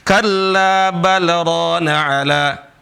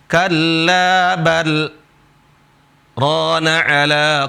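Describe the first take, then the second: First: It runs straight on with no pause. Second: There is a brief pause after bal. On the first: The speaker calls it wrong. "itu nggak berhenti" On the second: The speaker calls it right. "di sini berhenti"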